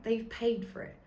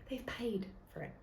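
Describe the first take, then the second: First: Said in the usual way. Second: A secret whispered aside. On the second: Real, not acted. Telling listeners the truth about TV slots, whispered. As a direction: let them in on a secret, whispering.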